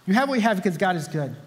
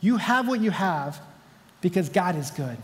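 First: Said in the usual way. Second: You have what you have slowed and pressed, then because God is good eased down; a slow, deliberate reminder; slow emphasis. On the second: Shown as a demonstration. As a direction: lean on each word of "you have what you have". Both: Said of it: "And remember this".

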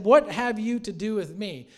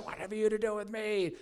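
First: Said in the usual way. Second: Strained, higher demoniac voice; mock demonic wail, pitched up; weird screaming voice. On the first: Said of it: "Now, we read it softly". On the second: Shown as a demonstration. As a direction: imitate a possessed man's weird cry. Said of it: "like, in a weird voice".

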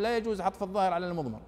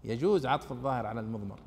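First: Fast, rule-reciting mock grammarian; quoting a strict grammarian. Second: Lower, patient correcting voice; calm correction. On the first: Teacher to students, mimicking the grammarian's rule, quick and curt. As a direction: rattle off the rule like a rigid grammarian. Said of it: "ويضع قاعدة يقول". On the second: Acted. Teacher answering the grammarian's rule, lower and patiently firm. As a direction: set the grammarian right gently. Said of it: "نقول: لا، معليش، قاعدتك أنت عدلها".

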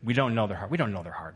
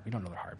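First: Said strongly with the crowd; louder congregation repeat. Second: Dropped to a near hush; soft final repeat. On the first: Preacher leading the congregation in a firm refrain. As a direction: lead the church in saying it. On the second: Preacher closing the refrain softly to the church. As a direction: let it fade quietly. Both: Shown as a demonstration. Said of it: "Would you say it with me?".

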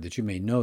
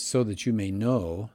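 First: Said in the usual way. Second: "know" leaned on and held at the end; stress on know. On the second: Shown as a demonstration. Teacher quoting Jesus' words to listeners, stress on "know". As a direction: land firmly on "know". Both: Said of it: "I'm gonna emphasize that word".

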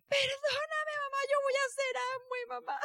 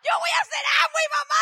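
First: High, tearful crying plea; sobbing apology. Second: Loud, fast, high tearful vow; crying shout. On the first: Daughter hugging her mother and crying, high and tearful. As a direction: beg forgiveness through sobs. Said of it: "me abraza como niña chiquita sollozando". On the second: Daughter vowing to her mother, louder and faster through sobs. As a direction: burst out with the promise through tears. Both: Retold or imitated.

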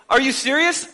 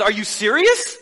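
First: Incredulous second take, more exasperated; raised exasperated repeat; exasperated disbelief. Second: Amused incredulous question with a laugh; lightly voiced exasperated God; mild mock disbelief. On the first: Retold or imitated. God repeats, more insistent.

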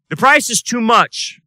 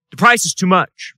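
First: "price" hit higher and harder; stress on price. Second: Said in the usual way. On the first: Acted. Pastor drives home the cost of truth, "price" stressed. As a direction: lean hard into "price" the second time. Pastor repeats line for emphasis.

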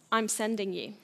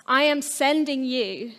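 First: Said in the usual way. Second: Am pulled apart from I and leaned on, said slowly; slow it down and land on am; stress on am. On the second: Pretend. Jesus to his followers, slow with weight on am.

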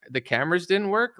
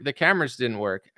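First: Higher pitch, rising on work in disbelief; incredulous echo. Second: Said in the usual way. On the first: Real, not acted. Host mocking the prison camera excuse, incredulous. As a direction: repeat the excuse back, stunned.

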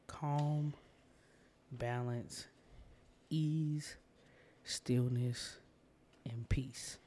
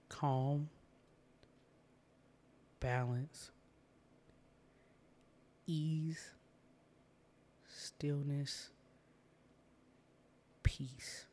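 First: A list of calm words, each set apart; meditation words. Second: Long silences between each word; slow repeat. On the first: Host giving listeners calming anchor words, first gentle pass. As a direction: offer each word as an anchor. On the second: Host repeating calming words for listeners, slower with long pauses. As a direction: let each word hang before the next. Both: Shown as a demonstration. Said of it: "So I'm gonna say that again".

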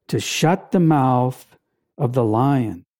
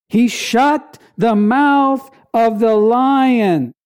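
First: Said in the usual way. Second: "mouth" stretched and leaned on, the rest deliberate; slow emphatic repeat. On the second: Shown as a demonstration. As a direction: drive the line home slowly, hitting "mouth".

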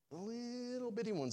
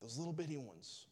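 First: LITTLE BITTY pitched way up, softly; squeaked-up, softer "little bitty"; teeny-tiny emphasis. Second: Said in the usual way. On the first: Shown as a demonstration. Preacher repeats the phrase for effect.

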